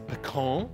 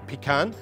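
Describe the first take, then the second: First: It is said the American way. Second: It is said the speaker's British way.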